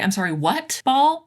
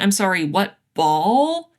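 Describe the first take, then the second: First: The stress is on "what". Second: The stress is on "ball".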